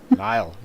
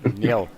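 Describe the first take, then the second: First: The name is said like 'Nile', rhyming with 'mile'. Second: The name is said like 'Neil', rhyming with 'meal'. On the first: The speaker calls it right. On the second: The speaker calls it wrong.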